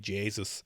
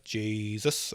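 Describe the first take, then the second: First: The name is said in a west-of-Ireland accent. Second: The name is said without an Irish accent.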